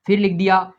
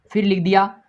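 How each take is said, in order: Both takes have the same delivery.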